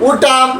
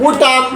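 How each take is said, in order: The two takes are said the same way.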